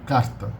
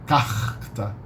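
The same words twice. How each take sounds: First: The r is a single quick tongue tap. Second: The r is a throaty h-like sound. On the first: This is the standard São Paulo pronunciation. "Only a single tap of the tongue" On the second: This is the Rio de Janeiro pronunciation. "In Rio de Janeiro, most people say carta"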